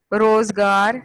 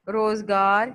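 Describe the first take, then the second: First: روزگار said much louder with a clear first syllable; loud clear demo. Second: Said in the usual way. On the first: Shown as a demonstration. Teacher calls روزگار loudly to the class so they copy. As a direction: call out روزگار loudly, hitting the rozgar vowels so the class hears. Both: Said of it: "رے کے اوپر پیش".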